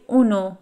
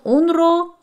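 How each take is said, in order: First: The parts merge into one word without r. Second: Two separate parts are said, with the r sound. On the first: "but when we speak fast, we say اونو" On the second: "It was اون رو"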